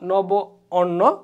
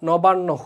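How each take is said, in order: First: The two words are said separately, with both vowels. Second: The two words merge into one word, vowels joined.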